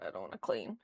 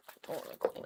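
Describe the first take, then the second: First: Much lower, sulky grumble with a rise on clean; mock grumble. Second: Whispered, unwilling; reluctant whisper. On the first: Refusing to clean, a low mock moan. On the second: Real, not acted. Dreading the cleaning, a whispered whine. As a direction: hush it, sulking about chores.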